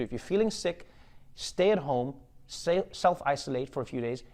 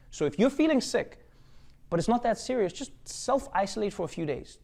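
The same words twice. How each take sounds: First: Said in the usual way. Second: Much higher, sing-song public service voice; much higher mock announcer giving the sick advice. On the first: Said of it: "what the C D C has told us to do". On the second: Shown as a demonstration. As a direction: parody a health announcement, pitched way up. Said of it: "This is not from me, by the way".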